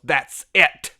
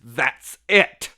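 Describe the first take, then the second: First: A loud, sudden repeat of the odd line; imitating T J. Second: Loud, abrupt imitation of the line; imitating T J. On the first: Retelling T J's strange fight line, loud mock blurt. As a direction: hammer it out abruptly, half laughing. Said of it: "He just stops and goes". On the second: T J stops the fight, loud blunt mock declaration. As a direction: blurt it out suddenly like a mock movie line. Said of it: "just the way he says it".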